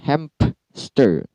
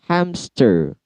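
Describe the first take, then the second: First: A p sound is inserted after the m. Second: No p sound is heard after the m.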